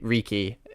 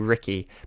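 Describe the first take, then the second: First: The name is said with an Eastern, Asian-like pronunciation. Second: The name is said with a Western, English-like pronunciation. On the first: "if you say like an Eastern tone, it'd be Riki" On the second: "if you did a Western tone, it would be Ricky"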